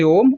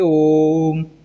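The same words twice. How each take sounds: First: The o vowel is said at normal length. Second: The o vowel is drawn out three times longer. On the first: "सामान्य रूप से बोलेंगे" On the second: "ओ की मात्रा को तीन या तीन से अधिक बार का समय देना"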